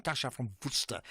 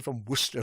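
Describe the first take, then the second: First: Worcester said the Afrikaans way, "Worcester" with a full "Woo-ster"; a light Afrikaans take on "Tasha from Worcester"; Afrikaans accent. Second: Said in the usual way. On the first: Shown as a demonstration. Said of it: "with my best Afrikaans accent". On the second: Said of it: "as opposed to from Worcester".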